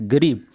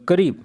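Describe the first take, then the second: First: The word begins with a G sound. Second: The word begins with a K sound.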